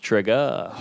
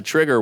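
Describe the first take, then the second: First: "trigger" with the final r dropped to an "uh"; mock-corrected pronunciation. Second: Said in the usual way. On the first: Comic correcting a heckler's word, "trigger" drawn out as "trig-guh". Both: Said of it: "I think it's pronounced trigger".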